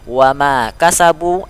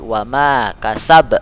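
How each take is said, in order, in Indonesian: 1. Frasa ini berakhir dengan vokal pendek. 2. Frasa ini berakhir dengan huruf qalqalah.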